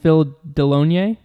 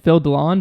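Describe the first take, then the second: First: The surname is said with its full ending. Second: The surname is cut short at the end. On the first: This is what the speaker believes is correct. The speaker calls it right. "but I think it's" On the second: This is the speaker's own easy version. The speaker calls it wrong. "I'm gonna say it the way I want to say it"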